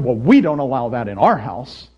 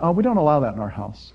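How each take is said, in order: First: It is said in a smug, self-righteous tone. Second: It is said in a plain, matter-of-fact tone.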